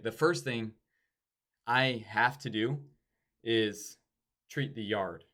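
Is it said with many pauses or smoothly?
many pauses. It is broken up by many pauses.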